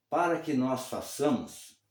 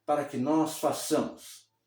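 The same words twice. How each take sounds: The two takes are said the same way.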